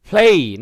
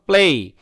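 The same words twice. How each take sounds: First: "play" with a breath puff on the p; correct pronunciation demo. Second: "play" with a hard, unaspirated p; wrong pronunciation demo. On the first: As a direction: say "play" as "phlay", vowel gliding to ay. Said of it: "এবং এই উচ্চারণ করবেন". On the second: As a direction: say "play" as "ple", no puff of air. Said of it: "play not play". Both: Shown as a demonstration.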